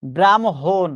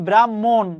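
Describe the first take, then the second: First: "ব্রাহ্মণ" said as bram-hon; correct pronunciation. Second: "ব্রাহ্মণ" said as bram-mon, doubled m; wrong pronunciation. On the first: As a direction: put the h after the m in "ব্রাহ্মণ". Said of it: "ব্রাহ্মণ শব্দের উচ্চারণ কিন্তু এটা". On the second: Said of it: "hundred percent ভুল হবে". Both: Shown as a demonstration.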